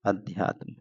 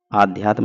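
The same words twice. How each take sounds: First: अध्यात्म begun with a short अ; short first vowel in अध्यात्म; correct form. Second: आध्यात्म begun with a long आ; wrong form. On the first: Teacher gives students the right form अध्यात्म, short अ. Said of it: "छोटा बनता है अध्यात्म". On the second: Teacher voices the wrong form आध्यात्म with long आ. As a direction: say आध्यात्म as आ-ध्यात्म, long first vowel. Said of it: "आध्यात्म नहीं होता है". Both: Shown as a demonstration.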